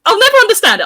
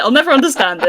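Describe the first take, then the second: First: High, loud disbelief on "never"; exasperated. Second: Said in the usual way. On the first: Real, not acted. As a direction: throw up your hands at it. Exasperated about being bullied.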